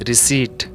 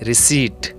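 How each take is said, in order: Both takes have the same delivery.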